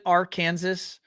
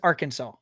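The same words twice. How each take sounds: First: The ending sounds like the word Kansas. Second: The ending sounds like the word saw. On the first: The speaker calls it wrong. "does anyone actually pronounce it Arkansas" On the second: The speaker calls it right. "or is it always Arkansas?"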